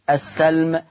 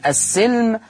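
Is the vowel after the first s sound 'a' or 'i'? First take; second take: a; i. First: The s sound is followed by an a vowel. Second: The s sound is followed by an i vowel. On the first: "بفتح آ السين" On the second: "يقرأ بكسر السين"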